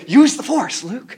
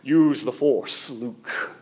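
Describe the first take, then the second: First: It is said in a lighter, non-menacing voice. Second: It is said in a deep, menacing put-on voice. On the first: The speaker calls it right. "It's not Vader, it's Obi-Wan" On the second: The speaker calls it wrong. "I don't know why I did the Vader voice"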